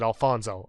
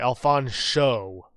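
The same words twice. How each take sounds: First: The middle consonant is a plain 's' sound. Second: The middle consonant is an 'sh' sound. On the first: The speaker calls it wrong. "He gets offended if you pronounce it Alfonso" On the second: The speaker calls it right. "Pronouncing the sh sound is very important"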